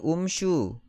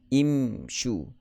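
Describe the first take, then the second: First: The word begins with an u vowel. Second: The word begins with an i vowel. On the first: The speaker calls it wrong. "Adakah kita baca dengan umshu? Tidak" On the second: The speaker calls it right. "kita akan baca dengan imshu"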